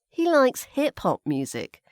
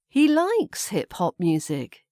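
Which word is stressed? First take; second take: hip-hop; likes. First: The stress falls on the word hip-hop. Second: The stress falls on the word likes. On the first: It is hip-hop, not another kind of music. "So hip-hop, maybe not pop music or classical music" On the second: He really likes it, not just casually. "change the stress to put the stress on the word likes"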